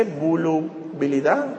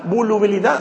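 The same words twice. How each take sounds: First: Volubilidad sounded out slowly and softly; unsure sounding-out. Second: Said in the usual way. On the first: Shown as a demonstration. Preacher checks a word with the congregation, unsure sounding-out of volubilidad. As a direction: tentatively say volubilidad in drawn-out pieces, quietly. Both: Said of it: "así se dice".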